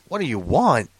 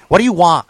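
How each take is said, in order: First: Said in the usual way. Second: Curt mock "want", final consonant dropped; mimicked brusque counterman; snappy shopkeeper. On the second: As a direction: snap it like an impatient clerk. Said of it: "they jump down your fucking throat".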